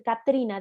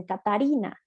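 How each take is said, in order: First: Said in the usual way. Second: "Catarina" with an extra a between t and r; child mispronunciation. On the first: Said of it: "en lugar de decir Catrina". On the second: Shown as a demonstration. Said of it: "dicen Catarina". ("Catarina" con vocal añadida, como niño)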